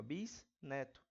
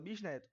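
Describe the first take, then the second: First: "bisneto" broken as bis, pause, neto; prefix split off. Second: Said in the usual way. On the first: Shown as a demonstration. ("bisneto" separado: bis, pausa, neto) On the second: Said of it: "a gente fala bisneto".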